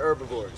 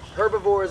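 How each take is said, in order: First: The word starts without an H sound. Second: The word starts with an H sound.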